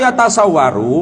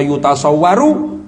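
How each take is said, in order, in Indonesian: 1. Suku kata pertama vokalnya 'a'. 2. Suku kata pertama vokalnya 'u'. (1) "boleh juga baca dengan fathah ya" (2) "kalau baca dengan dhammah"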